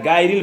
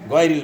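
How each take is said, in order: First: The first syllable has a thin, open 'a' sound. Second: The first syllable has a heavy, rounded sound. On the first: The speaker calls it wrong. "গায়রিল বলা যাবে না।" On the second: The speaker calls it right. "গয় বলতে হবে।"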